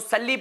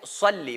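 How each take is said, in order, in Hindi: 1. पहला व्यंजन हल्का, पतला स है। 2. पहला व्यंजन भारी, मुंह भरकर बोला गया स है। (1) "जब आप इसको सल्ली पढ़ेंगे तो इसका माना चेंज हो जाएगा" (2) "सल्ली मुंह भर के निकालना है"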